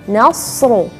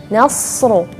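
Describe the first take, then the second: Both takes have the same delivery.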